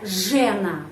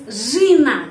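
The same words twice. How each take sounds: First: Жена with an open e, as zhe-na; deliberately wrong open-e жена; wrong pronunciation. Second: Жена said louder with a reduced vowel, zhy-NA, stress on the final a; correct pronunciation. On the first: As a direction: show the mistake, zhe with a clear e. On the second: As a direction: give the right form, zhy-NA. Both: Shown as a demonstration.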